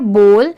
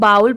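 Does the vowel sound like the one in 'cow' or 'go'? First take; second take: go; cow. First: The vowel sounds like the one in go. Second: The vowel glides like the one in cow. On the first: The speaker calls it right. "इसकी correct pronunciation है बोल" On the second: The speaker calls it wrong. "बहुत सारे लोग बाउल pronounce करते हैं but नहीं"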